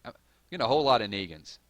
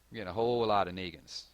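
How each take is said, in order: First: "whole lot of Negans" rushed out loud; quick, loud "a whole lot of Negans"; louder, faster. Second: Said in the usual way. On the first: Real, not acted. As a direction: blurt it, amused.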